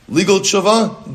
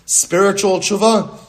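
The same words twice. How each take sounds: First: Legal tshuva called out high and loud, slowly; slow emphatic call of "Legal tshuva"; emphatic label. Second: Spiritual tshuva called out high and loud, slowly; slow emphatic call of "Spiritual tshuva"; emphatic label. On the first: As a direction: announce "Legal tshuva" like a headline, much higher and louder. Teacher names first kind emphatically. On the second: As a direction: announce "Spiritual tshuva" like a headline, much higher and louder. Teacher names second kind emphatically. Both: Shown as a demonstration.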